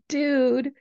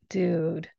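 First: It sounds happy and excited. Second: It sounds sad and disappointed.

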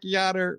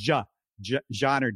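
First: The name begins with a Y sound. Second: The name begins with a J sound. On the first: The speaker calls it wrong. "It looks like Yonair" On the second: The speaker calls it right. "it is with a J, Jean. It's more like a Yonair"

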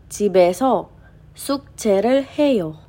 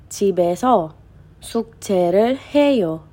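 Both takes have the same delivery.

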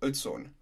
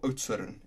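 First: The name is said with an English-style pronunciation. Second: The name is said with an Afrikaans-style pronunciation.

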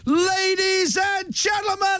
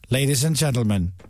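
First: It is said in a lively, energetic voice. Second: It is said in a low, subdued voice. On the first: "which is what I would go for" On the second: "a voiceover that's so low-key and really down"

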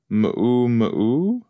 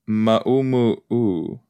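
First: It is said the common English way. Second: It is said the Hawaiian way. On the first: The speaker calls it wrong. "we're all pronouncing mumu wrong" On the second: The speaker calls it right. "It's ma'u mu'u"

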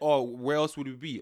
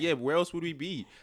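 First: It is said flatly, with low energy. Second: It is said brightly, with high energy.

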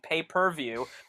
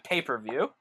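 First: Each syllable is set apart with small breaks. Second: The syllables run together like the word paper. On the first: "clearly a beat between pay-per-view" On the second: "as opposed to pay-per-view"

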